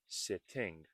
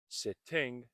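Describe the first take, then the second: First: The middle T is clearly released. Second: The same.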